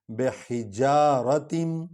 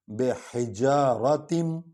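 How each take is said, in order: First: بِحِجَارَةٍ slowly with short ra and tanween; correct reading. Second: بِحِجَارَةٍ slowly, short ra, ending in tanween; correct reading. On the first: Teacher repeats the correct form. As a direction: say بِحِجَارَةٍ, not حِجَارَاتٍ. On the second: Teacher models the correct reading. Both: Shown as a demonstration. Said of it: "حِجَارَاتٍ بھی نہیں پڑھنا".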